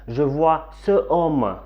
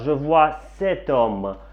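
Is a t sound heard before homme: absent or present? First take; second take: absent; present. First: No t sound comes before homme. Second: A t sound links the demonstrative to homme. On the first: The speaker calls it wrong. "on ne peut pas dire je vois ce homme" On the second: The speaker calls it right. "Devant une voyelle, c'est masculin, on dit sept"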